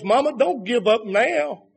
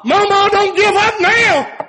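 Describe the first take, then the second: First: Said in the usual way. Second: High, loud cry of "Mama, don't give up now"; high shouted pulpit plea. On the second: Acted. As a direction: call it out to the mothers, pleading. Repeated plea, shouted higher.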